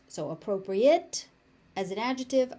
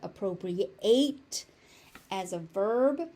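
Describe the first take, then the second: First: The ending is said the adjective way. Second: The ending is said the verb way. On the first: The word describes something as suitable. "appropriate as an adjective" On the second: The word names the action of taking something.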